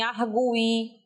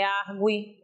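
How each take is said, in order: First: "arguí" with a long, stressed U, ar-GU-i. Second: "argui" with the U gliding quickly into the I, AR-gwi; unstressed U in argui. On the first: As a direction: hit the GU of "arguí" as its own strong syllable. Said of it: "tem que ser emitido como forma tônica". ("arguí" com o U tônico, demorado) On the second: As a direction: say "argui" with gwi as one weak syllable. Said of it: "não é argui". ("argui" com o U átono, gui numa sílaba só) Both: Shown as a demonstration.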